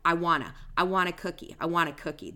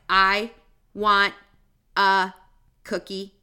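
First: The words flow together without any pauses. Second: Each word is separated by pauses, sounding robotic. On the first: The speaker calls it right. "That's how we would say it" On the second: The speaker calls it wrong. "Do you hear how robotic that sounds?"

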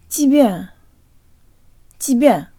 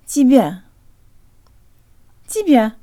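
No difference in how they are said.

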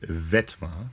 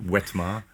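First: The name begins with a V sound. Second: The name begins with a W sound. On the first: The speaker calls it right. "you got to say it with the most German of all accents" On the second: The speaker calls it wrong. "not Wetma"

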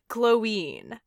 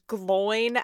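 First: The name does not rhyme with groin. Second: The name rhymes with groin. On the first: The speaker calls it right. "because there's an accent over the I" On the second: The speaker calls it wrong. "as in groin"

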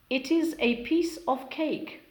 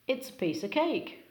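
First: It is is said as two full words. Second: It is is shortened to one syllable.

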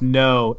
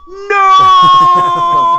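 First: It is said plainly and briefly. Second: It is said loudly and drawn out.

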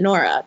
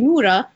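First: The name is said the English way. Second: The name is said the Arabic way. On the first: This is how outsiders read the spelling. The speaker calls it wrong. "people pronounce it Nora" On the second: This is the name's real form. The speaker calls it right. "but it's actually Nura"

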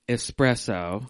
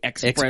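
First: It begins with a plain 'es' sound. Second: It begins with an 'ex' sound. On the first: The speaker calls it right. "You said it right" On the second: The speaker calls it wrong. "I usually say espresso. / There's no X's in there"

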